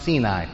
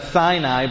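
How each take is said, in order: First: It is pronounced the Hebrew way. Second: It is pronounced the English way. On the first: "but in Hebrew, it's pronounced Sinai" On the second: "In English, we would pronounce that Sinai"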